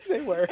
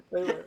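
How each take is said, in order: First: Laughing through the words. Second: Said in the usual way. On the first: Real, not acted. Laughing agreement.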